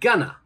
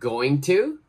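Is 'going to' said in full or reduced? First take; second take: reduced; full. First: The words are blended into a reduced form. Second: Both words are said fully and separately.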